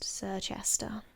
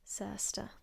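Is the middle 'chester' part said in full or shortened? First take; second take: full; shortened. First: The middle chester part is said in full. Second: The middle part is shortened to ster. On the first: The speaker calls it wrong. "you are probably thinking it's pronounced Sirchester" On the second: The speaker calls it right. "It's pronounced Surster"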